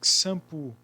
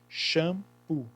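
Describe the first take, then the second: First: The word begins with a ks sound. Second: The word begins with a sh sound. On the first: The speaker calls it wrong. "Shampoo tem som de K S, o X? Não. Senão seria shampoo" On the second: The speaker calls it right. "O X tem som de C H, por isso que é shampoo"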